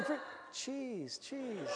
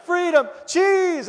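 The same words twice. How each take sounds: First: Much softer, higher, slowing voice; dog's thoughts. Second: High, loud, drawn-out cry; dog's decision. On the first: Runaway dog pondering the cheese, soft high mock musing. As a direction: imitate a dog softly tempted by food. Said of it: "you know, thinking". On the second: Runaway dog turning back for cheese, loud high cry. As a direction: imitate a dog loudly making up its mind. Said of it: "you just see him go". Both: Retold or imitated.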